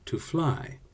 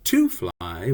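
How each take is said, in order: First: The second word carries the stress. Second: The first word carries the stress. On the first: The speaker calls it right. "we accent the word fly" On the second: The speaker calls it wrong. "We don't say"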